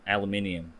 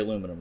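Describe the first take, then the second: First: It is said the British way. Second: It is said the American way.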